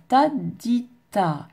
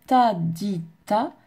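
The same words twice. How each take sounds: First: "ta di ta" placed evenly on the pulse; correct rhythm. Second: "ta di ta" said off the pulse, not held to the beat; wrong rhythm. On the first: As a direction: land each syllable of "ta di ta" on the beat. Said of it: "je dois faire ta di ta". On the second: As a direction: show the mistake with "ta di ta" rushed over the pulse. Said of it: "Surtout ne pas faire ta di ta, c'est faux". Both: Shown as a demonstration.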